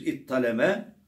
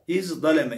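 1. Ortada çift t sesi var. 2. Ortası önce z, sonra d; idgamsız. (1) "za'yı ta'ya çeviriyoruz. Tı'yı ta'ya idgam ediyoruz" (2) "idgamsız"

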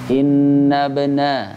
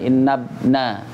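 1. Bunyi b ada pantulan gema ringan. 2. Bunyi b terpotong tanpa pantulan. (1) "Jadi bacanya innabna" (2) "Jangan innabna ... antum enggak dapat qalqalahnya"

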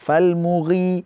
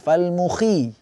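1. Gh diucapkan dengan suara. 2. Gh hanya hembusan napas, tanpa suara. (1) "ghi harus ada suaranya" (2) "Angin saja, fal mughi, tidak"

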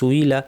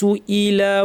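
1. মাঝের হামজা বাদ পড়ে, শব্দ দুটো মিশে যায়। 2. একটি শক্ত হামজা দুই অক্ষরকে আলাদা করে। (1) "আমরা অনেকে সুইলা পড়ে ফেলি, সুইলা সুইলা ভুল" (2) "হামজাকে খেয়াল করে শক্ত করতে হবে"

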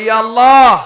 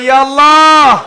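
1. এটা জোরে বলা হয়। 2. এটা আরও জোরে বলা হয়। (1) "জোরে বলি" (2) "আরো জোরে"

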